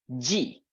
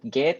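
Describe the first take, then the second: First: The letter is said with a soft j sound. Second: The letter is said with a hard g sound. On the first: The speaker calls it right. "but G" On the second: The speaker calls it wrong. "Huruf G bukan disebut gate"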